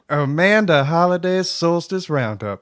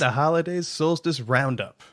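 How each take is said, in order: First: It is said in a southern accent. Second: It is said in a neutral accent.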